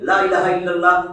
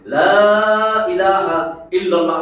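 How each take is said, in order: First: The vowel of la is cut short. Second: The vowel of la is drawn out long. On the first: Surely there is a god besides Allah. "কেউ যদি এরকম করে বলেন" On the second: There is no god but Allah. "ওই লায়ে টান আছে লা"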